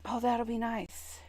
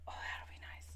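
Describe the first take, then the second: First: Said in the usual way. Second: Whispered echo of the line. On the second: Real, not acted. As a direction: repeat it in a hush. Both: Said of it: "repeated as whisper".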